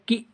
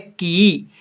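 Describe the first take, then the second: First: The vowel is held only briefly. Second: The vowel is held for longer. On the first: "छोटी ई" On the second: "बड़ी ई"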